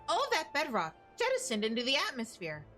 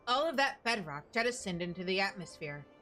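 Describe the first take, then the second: First: It is said in a put-on narrator voice. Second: It is said in a plain everyday voice.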